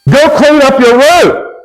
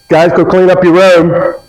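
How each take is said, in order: First: It is said angrily at a higher pitch. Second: It is said calmly and nicely.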